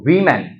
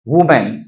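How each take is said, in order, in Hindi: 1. पहला शब्दांश 'wi' की आवाज़ के साथ बोला जाता है। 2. पहला शब्दांश 'wu' की आवाज़ के साथ बोला जाता है। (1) "इसका प्रोनाउंस क्या होगा? एक्सेंट क्या होगा? वीमेन" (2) "ना कि वुमेन"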